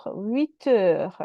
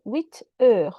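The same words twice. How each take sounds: First: Huit heures joined, the T carried into heures; liaison. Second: Huit heures slowly, the two words set apart to show the final T; liaison demonstration. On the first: Teacher shows how you make the liaison, huit heures run together. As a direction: link "huit heures" so it sounds like "wee-teur". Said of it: "That's how you ... make the liaison". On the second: Teacher explains the liaison to the class, huit heures slowly taken apart. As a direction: break "huit heures" into huit, then heures, sounding the T. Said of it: "T and E makes liaison". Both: Shown as a demonstration.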